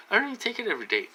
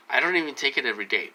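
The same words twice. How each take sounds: First: Higher and fast, fed-up insistence; exasperated repeat. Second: Said in the usual way. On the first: Real, not acted. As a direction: rattle it off again, fed up. Same complaint said again, exasperated.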